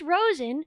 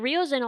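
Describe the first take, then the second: First: The name is said as Rosen. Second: The name is said as Riosin. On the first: The speaker calls it right. "but it's just Rosen" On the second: The speaker calls it wrong. "I've been saying Riosin all this time because I'm apparently illiterate"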